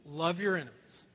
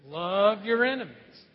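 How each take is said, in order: First: Said in the usual way. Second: Love your enemies said slow and louder, each word pressed; preacher leading the congregation's repeat of Love your enemies; slower, louder unison. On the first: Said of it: "could you just repeat those words". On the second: Shown as a demonstration. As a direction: lead the room in saying Love your enemies slowly and firmly. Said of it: "Let's try that again".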